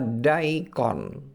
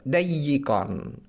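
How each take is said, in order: First: The y sound is short and single. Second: The y sound is doubled and held longer. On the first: "yang dibaca daikon" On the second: "mayoritas ulama membacanya uh, dayikon. Nah, di sini bentak bentasydidkan huruf ya"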